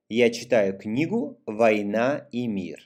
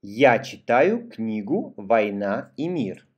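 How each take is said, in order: First: Brisker read-along sentence; connected teacher read for reading along; faster reading. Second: Careful, measured read for a learner; teacher's deliberate model sentence; model for repeating. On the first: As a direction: read it through at a quicker, flowing pace. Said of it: "voy a leer más rápido". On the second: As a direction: read it out phrase by phrase, clearly. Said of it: "Primero yo y tú repites después de mí". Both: Shown as a demonstration.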